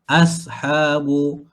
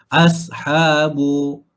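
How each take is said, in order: The two takes are said the same way.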